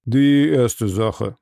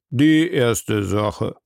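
First: The judge opens court, slow and drawn out; each word weighed and stretched. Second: Very slow, drawn out, rising at the end; judge repeating slowly. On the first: Judge opening the first case, slow and stately. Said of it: "sprach er". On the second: Judge repeating the case call, very slow with a rise. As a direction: stretch each word, a weary judge repeating himself. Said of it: "wiederholte der Richter Obadiah". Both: A narrator's reading.

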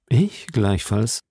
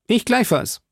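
First: Slow, composed musketeer; Aramis. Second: Put-on high, eager young musketeer; D'Artagnan. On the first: Acted. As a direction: agree slowly, in an unruffled voice. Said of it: "versetzte Aramis". (langsame, gefasste Musketierstimme) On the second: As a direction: chime in promptly, pitched well up. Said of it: "bemerkte D'Artagnan". (hohe, eifrige Stimme eines jungen Musketiers)

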